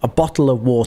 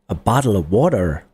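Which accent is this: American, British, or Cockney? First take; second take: British; American. First: It is said in a British accent, t clear. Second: It is said in an American accent. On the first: "I'm hitting the T. That's my natural accent" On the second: "That's U S"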